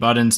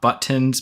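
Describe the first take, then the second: First: The middle consonant sounds like a d. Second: The middle consonant sounds like a clear t.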